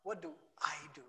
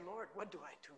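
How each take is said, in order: First: Quick "What do I do?" with the weight on "What" and "I"; the wrong way, fast and all about "I"; self-focused stress. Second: "Lord" leaned on, then a soft falling "what do I do?"; quiet, prayerful "Lord, what do I do?" with "Lord" first and strongest; stress on Lord. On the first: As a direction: rattle off "What do I do?" as an anxious, me-centred question. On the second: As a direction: put the weight on "Lord", humble and turned toward him. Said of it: "The emphasis is not on me". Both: Shown as a demonstration.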